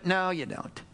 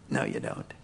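First: Said in the usual way. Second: Breathy whispered reply; hushed, almost voiceless. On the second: Acted. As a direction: drop to a whisper.

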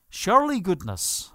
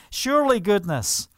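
First: A light Irish lilt on "Surely goodness"; gently Irish "Surely goodness", not overdone; Irish accent. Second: Said in the usual way. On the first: Shown as a demonstration. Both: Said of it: "as we say in the Irish accent".

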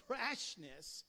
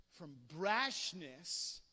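First: Said in the usual way. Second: Brashness drawn out slow and loud; slow punched brashness; stress on brashness. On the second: Shown as a demonstration. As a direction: lean hard on brashness.

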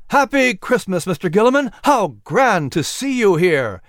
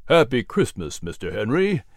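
First: High, raised festive greeting; delighted exclamation. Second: Friendly greeting at an easy pitch; warm smiling reply. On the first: Patrick greets Gilliman over the delighted crowd, exclaiming high. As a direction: call out happily over a noisy crowd. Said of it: "exclaimed over the sound of the delighted crowd". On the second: Gilliman answers his old friend Patrick, warm and unexcited. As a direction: return the greeting with a smile. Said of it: "Gilliman replied with a warm smile". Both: Acted.

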